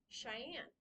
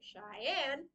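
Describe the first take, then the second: First: The stress is on the first syllable. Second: The stress is on the second syllable. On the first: The speaker calls it right. "The shy part is very much the front of it. Anne is very much the soft bit" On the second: The speaker calls it wrong. "You wouldn't say it Cheyenne. That sounds weird"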